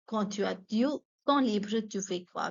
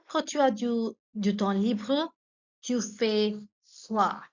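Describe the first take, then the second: First: Said in the usual way. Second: "Quand tu as du temps libre, tu fais quoi?" broken into pieces with pauses; feed it to learners bit by bit; careful chunked dictation. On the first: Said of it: "teacher repeats question fluently". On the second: Shown as a demonstration. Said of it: "teacher models question in chunks".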